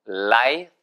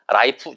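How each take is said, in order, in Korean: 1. f 소리로 끝나요, 바람이 새어 나가요. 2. 한국식으로 딱 끊기는 p 소리로 끝나요. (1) "위치아가 아랫니에 소리 갖다 붙습니다. 소리가 새어나가야 돼요" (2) "라이프 절대 아닙니다"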